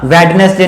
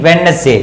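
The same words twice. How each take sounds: First: वेडनेसडे with the D sounded; wrong pronunciation. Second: वेडनेसडे said as "wen-es-day"; corrected वेडनेसडे, no d before n; silent D. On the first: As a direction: say वेडनेसडे as "wed-nes-day". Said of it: "वेडनेसडे नहीं". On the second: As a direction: drop the first d in वेडनेसडे. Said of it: "उच्चारण नहीं होगा". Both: Shown as a demonstration.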